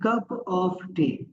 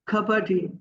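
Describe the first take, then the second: First: Every word, including 'of', is said clearly. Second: The 'of' shrinks into a quick 'a' sound.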